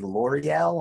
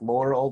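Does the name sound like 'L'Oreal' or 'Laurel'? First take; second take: L'Oreal; Laurel. First: It is said as three syllables, like L'Oreal. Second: It is said as two syllables, like Laurel. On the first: "it looks like it would be L'Oreal, like the hair product" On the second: "At first, I thought it was Laurel"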